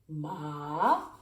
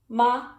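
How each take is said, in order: First: The pitch dips low, then rises. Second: The pitch stays high and level.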